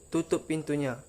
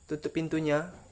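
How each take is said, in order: First: It is said as a command on a high pitch. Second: It is said as a question in a soft tone. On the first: The listener is told to close the door. "untuk kata perintah seperti tutup pintunya, maka itu menggunakan nada tinggi" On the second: The speaker asks whether to close the door. "untuk kata tanda tanya itu tutup pintunya, itu menggunakan tanda tanya itu dengan nada lembut"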